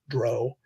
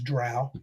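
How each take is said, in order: First: The vowel does not rhyme with cow. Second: The vowel rhymes with the word cow. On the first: The speaker calls it wrong. "not dro" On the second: The speaker calls it right. "pronounced like cow"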